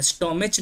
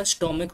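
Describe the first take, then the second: First: स्टोमच ending in a "ch" sound; wrong pronunciation. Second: स्टोमक with a hard "k" at the end; correct pronunciation. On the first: Teacher repeating the wrong form स्टोमच, with a "ch". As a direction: pronounce स्टोमच with a "ch" at the end. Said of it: "स्टोमक होता है". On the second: Teacher repeating the right form स्टोमक, with a hard "k". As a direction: close स्टोमक on a crisp "k". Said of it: "स्टोमच नहीं होता". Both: Shown as a demonstration.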